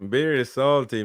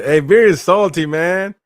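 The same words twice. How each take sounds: First: Said in the usual way. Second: Loud playful jab at a salty viewer; loud teasing call-out. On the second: Real, not acted. Streamer ribbing viewer Beer in chat, loud and teasing. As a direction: shout it out high and loud, ribbing a friend.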